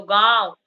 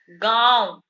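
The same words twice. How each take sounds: First: गांव with a clear nasalised आं, louder; nasal vowel demo again. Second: गांव said with the vowel through nose and mouth; nasal vowel demo. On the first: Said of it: "तो गांव बोल रहे हैं". (गांव का नाक से उच्चारण) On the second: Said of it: "तो गांव बोल रहे हैं तो हमारे नाक से भी हवा". (गांव का अनुनासिक उच्चारण) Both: Shown as a demonstration.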